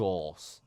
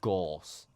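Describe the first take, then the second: First: It is said so it sounds like 'gauze'. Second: The same.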